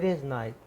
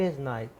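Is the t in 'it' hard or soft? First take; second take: soft; soft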